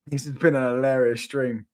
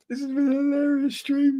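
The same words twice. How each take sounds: First: Said in the usual way. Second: Much higher, put-on high voice; raised, mock squeaky take. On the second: Shown as a demonstration. Streamer wrapping up, joking in a squeaky high voice. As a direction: squeak it out like a joke voice.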